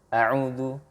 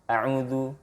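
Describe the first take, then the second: No difference in how they are said.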